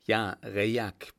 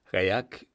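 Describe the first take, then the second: First: Slow, steady confirmation; grave confirmation. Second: Understated shocked exclamation; startled cry. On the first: Lieutenant confirming the dead man's name to Florian, slow and steady. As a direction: confirm it unhurriedly. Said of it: "bestätigte Königsau". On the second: Florian recognising the dead man, startled. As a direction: call out the name in alarmed disbelief. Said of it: "rief Florian ganz und gar erschreckt". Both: A narrator's reading.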